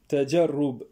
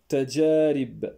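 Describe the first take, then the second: First: The vowel before the final b is u. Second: The vowel before the final b is i. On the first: The speaker calls it wrong. "la plupart des gens font une erreur" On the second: The speaker calls it right. "le mot tajarib"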